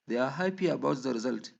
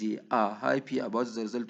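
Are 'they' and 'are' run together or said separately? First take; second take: run together; separately. First: The words they and are merge into one. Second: The words they and are are said separately. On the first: "we say" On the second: "instead of"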